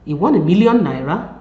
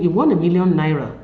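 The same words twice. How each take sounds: First: Rising on "won", asked as a question; "You won a million naira" with a questioning rise; question tune. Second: Falling on "won", said as fact; "You won a million naira" as a flat declaration; statement tune. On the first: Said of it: "while the latter is a question". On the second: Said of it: "The former is a declarative sentence". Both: Shown as a demonstration.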